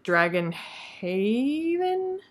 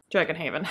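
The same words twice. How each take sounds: First: HAVEN stretched out long and questioning; searching, unsure question. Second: Said in the usual way. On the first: Real, not acted. Vlogger trying to recall a book title, drawn-out questioning HAVEN. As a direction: draw out HAVEN as if unsure it is right.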